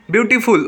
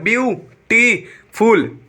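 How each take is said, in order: First: Said in the usual way. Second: "beautiful" slowly in three separate beats, byu-ti-ful; syllable by syllable. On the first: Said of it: "वहाँ पे क्या हो रहा है". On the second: Shown as a demonstration. Teacher counts three syllables for students, "beautiful" slowly split apart. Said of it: "तीन syllable हो रहा है".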